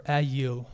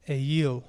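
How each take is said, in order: First: "ayil" with a short A as in cat, then yeel; alternative pronunciation. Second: "ayil" as AY-yeel, first sound as in day; Hebrew pronunciation. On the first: Teacher offering another Hebrew reading, "ayil" as short-A a-yeel. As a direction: say "ayil" as A-YEEL, flat first vowel. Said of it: "make sure I say it correctly". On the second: Teacher repeating the Hebrew word for ram, "ayil" as AY-yeel. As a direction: open "ayil" on a long A, then yeel. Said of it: "the word in Hebrew is". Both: Shown as a demonstration.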